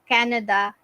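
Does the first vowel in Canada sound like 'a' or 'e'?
a. The first vowel sounds like a plain 'a'. "instead of"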